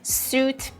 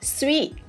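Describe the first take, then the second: First: It is pronounced like suit. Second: It is pronounced like sweet. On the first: The speaker calls it wrong. "Number thirteen is not suit" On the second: The speaker calls it right. "it is sweet"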